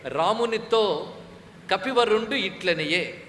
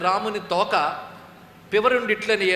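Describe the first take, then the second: First: The break comes after 'Ramunito'. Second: The break comes after 'Ramuni toka'.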